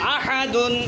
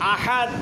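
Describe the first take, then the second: First: The word ends with an added 'un' sound. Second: The word ends cleanly on the 'd' sound. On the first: The reading continues without stopping. "দাল দুই পেশ দুন" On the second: The reader stops at this word. "কিন্তু দাঁড়াইলে আহাদ"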